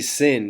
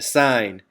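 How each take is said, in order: First: The word has a short vowel, like 'pin'. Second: The word has a long vowel, like 'line'. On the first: The speaker calls it wrong. "please do not say sin" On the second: The speaker calls it right. "in math, that's pronounced sine"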